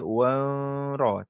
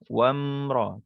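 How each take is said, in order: First: The 'm' is weak, without full lip closure. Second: The 'm' is clear, with the lips fully closed. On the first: The speaker calls it wrong. "tak boleh kita wamra, tak boleh" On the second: The speaker calls it right. "rapatkan kita punya bibir kita eh"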